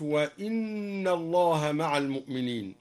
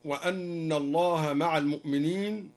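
First: "وإن" opens with i, wa-inna; kasra on hamza. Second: Said in the usual way. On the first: Shown as a demonstration. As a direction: recite "وإن" with an i after the hamza, not a. (كسر الهمزة في "وإن") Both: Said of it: "وكسر الهمزة من قوله تعالى".

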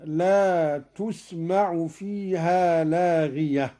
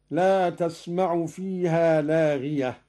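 First: Slow "laa tusma'u", with u on the ت of تسمع; damma on ta. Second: Said in the usual way. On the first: Shown as a demonstration. Teacher showing Qalun's reading, slow تسمع with u on ت. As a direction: round تسمع to "tusma'u", stopping on لاغية. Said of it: "بالرفع هكذا". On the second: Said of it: "قرأ قالون بضم التاء".

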